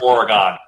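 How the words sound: It is said the way East Coast speakers say it. The speaker calls it wrong. "you don't pronounce it Oregon. That's an East Coast thing"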